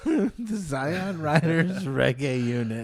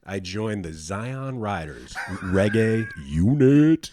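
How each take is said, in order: First: Laughing echo. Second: Slow, grand, louder band name; proud announcement. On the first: Real, not acted. Echoing the band name back, laughing. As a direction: repeat the name, laughing, slow and high. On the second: Shown as a demonstration. Asked to tell everybody, proudly announces the name. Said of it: "tell everybody the name".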